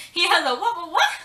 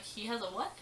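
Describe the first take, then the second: First: High, loud, repeating in disbelief; shocked loud disbelief. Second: Said in the usual way. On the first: Retold or imitated. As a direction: yell it out in shock, louder and higher each time.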